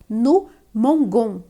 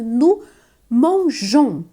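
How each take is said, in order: First: The g is said as a hard sound. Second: The g is said as a soft sound. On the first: The speaker calls it wrong. "senão ficaria no mongon, né? ... Ficaria estranho" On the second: The speaker calls it right. "Então é no mangeons"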